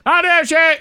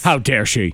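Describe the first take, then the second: First: It is said at the highest volume. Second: It is said louder than before. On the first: "I just keep saying it louder" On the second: "I just keep saying it louder"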